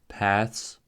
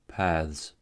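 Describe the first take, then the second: First: The ending has a voiceless th and s. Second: The ending has a voiced th and z. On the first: "the voiceless consonant cluster ths" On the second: "the voiced"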